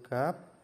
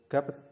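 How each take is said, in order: First: Only one final consonant is sounded, one syllable. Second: An extra vowel is added, making two syllables. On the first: The speaker calls it right. "Langsung gap" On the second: The speaker calls it wrong. "atau gapet, bukan begitu"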